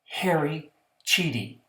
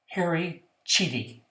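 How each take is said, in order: First: The surname begins with a ch sound. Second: The same.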